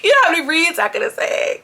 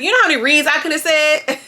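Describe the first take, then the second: First: High, giggly repeat of the line; laughing catchphrase. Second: High, punchy repeat of Bobby's line; mimicking Bobby, louder. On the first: Retold or imitated. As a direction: crack up while saying it. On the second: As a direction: say it again with more bite. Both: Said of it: "That's my new thing".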